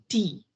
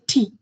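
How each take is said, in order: First: It is said with an Indian pronunciation. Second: It is said with the local pronunciation. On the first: "we say tea" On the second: "but here they say tea"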